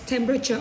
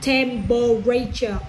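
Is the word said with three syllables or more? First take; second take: Three; More. First: The word is said with three syllables. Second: The word is said with more than three syllables. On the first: The speaker calls it right. "Only three syllables" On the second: The speaker calls it wrong. "not temperature. Wrong"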